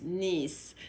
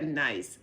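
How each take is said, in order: First: The vowel sounds like the one in 'piece'. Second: The vowel sounds like the one in 'ice'. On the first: It names the French city. The speaker calls it right. "that's how we say it, like the niece" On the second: It is read as the English word. The speaker calls it wrong. "spelled exactly like the English word, like you just said it"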